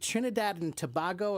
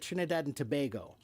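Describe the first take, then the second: First: Tobago's middle vowel sounds like 'ah'. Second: Tobago's middle vowel sounds like 'ay'. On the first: "if it's an ah" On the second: "or a sound"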